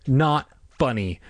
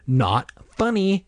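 First: Slow, firm refusal to be amused; deliberate, mildly stern objection; insistent. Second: Slow, high-pitched insistence; unamused, drawn out and pitched up; repeated objection. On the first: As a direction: say it slowly, unamused. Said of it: "Margaret insisted". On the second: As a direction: repeat it higher, more exasperated. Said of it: "she repeated". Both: A narrator's reading.

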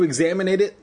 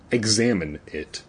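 First: "examine it" misread with an extra "ate" syllable; misread as examinate. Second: Said in the usual way. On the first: Real, not acted. Reader stumbling over the story's wording, "examine it" as "examinate it". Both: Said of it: "Examinate is not a word".

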